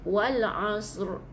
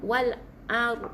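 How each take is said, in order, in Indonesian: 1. Bunyi s tebal datang sebelum r. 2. Tidak ada bunyi s sebelum r. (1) "Sebut huruf sad dulu baru bunyi r" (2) "tak bunyi sad pula"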